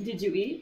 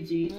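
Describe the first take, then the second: First: The three words are said separately and fully. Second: The words are run together fast into one syllable. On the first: "Instead of saying" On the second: "we like put it together really fast"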